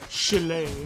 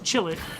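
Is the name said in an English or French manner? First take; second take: French; English. First: The name is pronounced in a French manner. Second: The name is pronounced in an English manner. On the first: It makes the name a joke. "supposed to be pronounced the French manner" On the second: It is the less entertaining reading.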